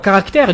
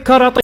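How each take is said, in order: First: It is said as caractère, with the full ending. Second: It is said as karatai, with the ending changed. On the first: "au lieu de dire euh, caractère" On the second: "elle disait karatai"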